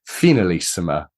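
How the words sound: The word is said with a European-sounding accent. The speaker calls it right. "more European or, or South American accent to it"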